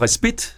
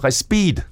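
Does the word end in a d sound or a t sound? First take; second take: t sound; d sound. First: The word ends with a t sound. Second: The word ends with a d sound. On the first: "Det latinske ord respit" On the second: "det blev udtalt som respid"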